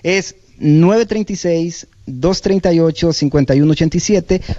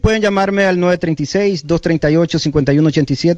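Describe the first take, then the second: First: The number is said slowly. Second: The number is said fast.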